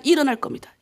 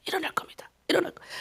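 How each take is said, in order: First: Said in the usual way. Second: Very soft whisper, repeated to oneself; whispered resolve. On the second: Retold or imitated. Pastor telling himself in prayer he will rise, whispered. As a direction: whisper it like a private promise.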